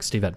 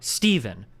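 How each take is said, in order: First: The syllables are said evenly, without hard stress. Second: One syllable carries a strong, hard stress. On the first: This is how Japanese speakers say it. "or like Steven or something" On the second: This is how English speakers say it. "Like we have very very hard"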